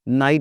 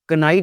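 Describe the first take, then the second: First: The k sound at the start is silent. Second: The k sound at the start is pronounced. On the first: The speaker calls it right. "इसको नाइट बोलते हैं" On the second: The speaker calls it wrong. "हम कनाइट नहीं बोलते"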